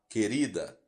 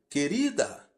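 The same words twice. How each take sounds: First: The word is said in a low, gentle voice. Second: The word is said in a loud, raised voice. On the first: It keeps the anger calm. The speaker calls it right. "Fale em tom baixo e suave" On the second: It makes the speaker angrier still. The speaker calls it wrong. "não levante a voz dizendo"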